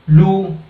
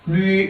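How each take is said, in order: First: The vowel is a plain oo sound. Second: The vowel mixes oo with an ee sound. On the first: The speaker calls it wrong. "you cannot pronounce it like lu" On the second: The speaker calls it right. "it should be rightly pronounced as lui"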